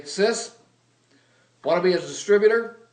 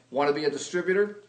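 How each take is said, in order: First: Higher, louder, rushed blurt; just blurt it out at her; blurted pitch. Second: Rushed, blurted sales question; blurted pitch. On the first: Finally pitching his sister at dinner, a loud rushed blurt. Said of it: "and I say". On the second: Blurting the sales question to his sister, fast. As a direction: fire it off fast and blunt. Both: Retold or imitated.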